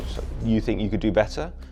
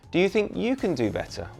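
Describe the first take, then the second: First: It sounds defensive and challenging, like a taunt. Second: It sounds friendly and sincere, like an invitation.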